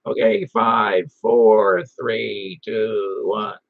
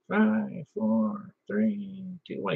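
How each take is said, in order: First: Slow, low mock radio countdown; drawn-out countdown, starting strong and easing off; countdown into a mic. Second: High, faint imitation countdown; thin-volume, raised voice mimicking a distant caller; far from the mic. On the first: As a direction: count down slowly in a lowered imitation voice. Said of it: "hold the mic about ten inches". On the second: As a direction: count down softly as if from arm's length. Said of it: "put it out full arm's length".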